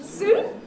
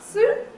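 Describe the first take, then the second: The two takes are said the same way.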